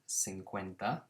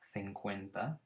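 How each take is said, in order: First: The c sounds are said like s. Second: The c sounds are said like th.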